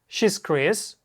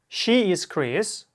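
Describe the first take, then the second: First: The verb is contracted into one quick syllable. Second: The verb is said as two separate words. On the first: "а второй раз в сокращенной" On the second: "Первый раз читаем глаголы to be в полной форме"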